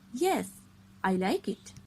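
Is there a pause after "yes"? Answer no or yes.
yes. There is a short pause after "yes". The speaker calls it right. "We can say like that"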